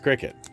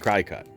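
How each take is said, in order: First: The second syllable sounds like 'kit'. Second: The second syllable sounds like 'cut'. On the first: This is how it is actually said. "I know it's Cricket, but I don't like that" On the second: This is how the speaker wishes it were said. "I really want it to be Cricut"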